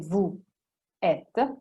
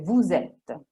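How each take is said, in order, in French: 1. Vous et êtes sont prononcés sans liaison. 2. Un son z relie vous à êtes. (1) "Se dite vous êtes, è sbagliato" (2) "si dice vous êtes"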